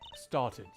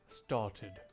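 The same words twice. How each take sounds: First: The middle T is softened, not crisply released. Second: The middle T is clearly and crisply pronounced. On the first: The speaker calls it wrong. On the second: The speaker calls it right.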